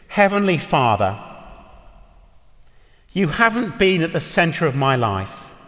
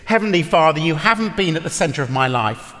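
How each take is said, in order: First: It is said slowly, phrase by phrase. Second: It is said at a normal pace.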